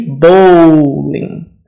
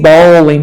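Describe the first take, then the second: First: The first vowel sounds like the one in 'bowl'. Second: The first vowel sounds like the one in 'ball'. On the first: The speaker calls it right. "And this would be bowling" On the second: The speaker calls it wrong. "Don't say bowling because we have the word ball"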